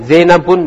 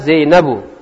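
First: The name ends with an added n sound. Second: The name ends in a plain vowel. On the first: The speaker calls it wrong. "Zainabun tidak boleh" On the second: The speaker calls it right. "Tidak boleh ditanwin"

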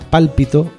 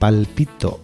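First: The stress is on the first syllable. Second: The stress is on the second syllable. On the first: It means a hunch. "Si te dijera pálpito, te iba a despistar un poquito más" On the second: It hints at a pun on a body part. "Aquí la entonación es ciertamente fundamental"

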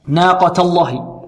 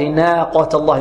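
First: The first vowel is a medium open 'a'. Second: The first vowel is tilted toward an 'e' sound. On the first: The speaker calls it right. "نرقق النون ونفتح النون فتحا متوسطا" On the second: The speaker calls it wrong. "فلا نقول ناقة الله"

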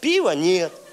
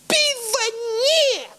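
First: The phrase is said in a plain, calm tone. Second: The phrase is said in an angry, exclaiming tone. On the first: The sign simply states a fact. "просто написать" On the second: The sign seems to shout rudely at the reader. "такой злой"

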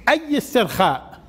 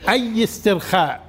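The two takes are said the same way.

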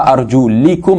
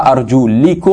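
First: The vowel before -kum is a short i. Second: The vowel before -kum is a short i.

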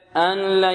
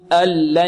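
First: A trace of nasal n remains before l. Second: The n merges fully into the l sound. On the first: The speaker calls it wrong. "يعني يأتي بشيء من الغنة" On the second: The speaker calls it right. "إدغام بغير غنة"

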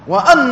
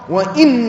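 First: The hamza is said with the vowel a. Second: The hamza is said with the vowel i. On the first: It is read as linked to the preceding verb. "هذه قراءة الجمهور" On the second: It is read as a new statement. "بكسر الهمزة"

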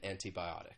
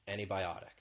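First: The T after the N is clearly pronounced. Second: The T after the N is dropped. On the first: "you hear that true T sound" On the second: "you don't really hear that T sound"

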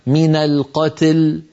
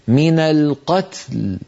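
First: The ta leans toward an i vowel. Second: The ta and lam both stay unvowelled. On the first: The speaker calls it wrong. "نكون قد جعلنا التاء قد مالت إلى الكسر وهذا لا يصح" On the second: The speaker calls it right. "لابد أن نبقي التاء ساكنة واللام ساكنة"

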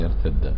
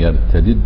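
First: The two d sounds merge into one doubled d. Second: The two d sounds are pronounced separately. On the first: "إدغام" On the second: "الفك يعني فك الإدغام يعني ترجع الدال كما كان"

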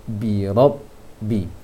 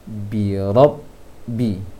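The two takes are said the same way.

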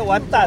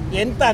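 First: The word is said in a Zhejiang accent. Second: The word is said in a plain accent. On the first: "即完蛋" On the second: "元旦伊讲哦"

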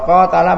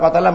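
First: The first vowel is held long. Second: The first vowel is kept short. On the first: To fight against someone. "Kalau qatala memerangi" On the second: To kill someone. "kalau qatala membunuh"

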